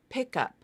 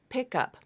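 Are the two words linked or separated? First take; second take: linked; linked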